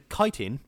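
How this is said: It is said with an American pronunciation. "which I think is the American pronunciation"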